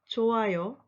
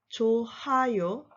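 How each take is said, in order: First: The h sound in the middle is silent. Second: The h sound in the middle is pronounced. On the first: The speaker calls it right. "h is not pronounced. It's silent. So you should say" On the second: The speaker calls it wrong. "not 좋아요. That's wrong"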